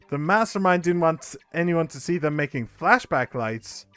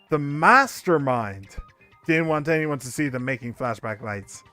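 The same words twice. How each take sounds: First: The stress falls on flashback lights. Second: The stress falls on mastermind. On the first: The flashback lights are the key point. The speaker calls it wrong. "you're putting the emphasis on the wrong syllables" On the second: The mastermind is the key point. The speaker calls it right. "the mastermind is the important word in that sentence"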